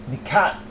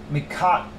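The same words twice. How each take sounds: The two takes are said the same way.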